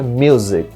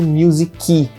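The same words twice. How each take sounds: First: The word ends on the consonant, no extra vowel. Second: An extra vowel sound follows the final consonant. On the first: The speaker calls it right. "o certo é music" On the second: The speaker calls it wrong. "o fato dela ter falado music"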